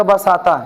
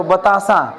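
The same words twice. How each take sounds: First: बसाता with the sounds swapped, ba-sa-ta; child's mispronunciation. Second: बतासा said cleanly as ba-ta-sa; correct pronunciation. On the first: Retold or imitated. Imitating a small child who swaps sounds in बसाता. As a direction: mimic a child saying बसाता for बतासा. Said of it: "वो कहेगा". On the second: Shown as a demonstration. Teacher models बतासा for the class, clearly. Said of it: "जब उच्चारण करेंगे".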